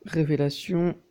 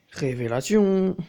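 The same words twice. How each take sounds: First: Said in the usual way. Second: Slow, loud, drawn-out "Révélation"; mock dramatic. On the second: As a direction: announce it like a hammed-up grand reveal. Repeats the word theatrically. (annonce faussement théâtrale, étirée et forte)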